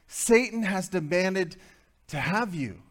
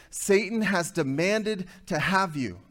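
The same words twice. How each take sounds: First: Satan has demanded, slow, with Satan hit high and firm; stress on Satan. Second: Said in the usual way. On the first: Shown as a demonstration. Preacher repeating the verse to the men, slow and stressed on Satan. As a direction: lean hard on Satan as you read it slowly back. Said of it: "repeats for emphasis". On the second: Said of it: "repeated line".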